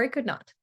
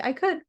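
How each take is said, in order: First: "could" steady, falling calmly to "not"; settled falling "I could not". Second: "could" lifted high and open on the end; an upbeat "I could" with the pitch going up; light rising "I could". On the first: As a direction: land "I could not" with a calm drop. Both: Shown as a demonstration. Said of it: "We're just gonna say".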